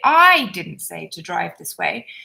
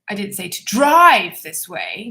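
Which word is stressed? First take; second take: I; drive. First: The word I carries the main stress. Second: The word drive carries the main stress. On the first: "If you stress I" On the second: "if you emphasize drive, see, I'm exaggerating"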